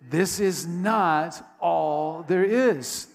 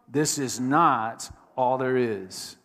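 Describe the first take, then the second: First: It is said with more energy and enthusiasm. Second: It is said with ordinary, moderate energy.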